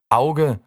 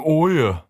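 First: It is said in standard German pronunciation. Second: It is said in a regional dialect pronunciation.

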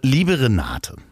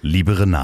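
First: It is said in his normal voice. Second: It is said in a put-on voice.

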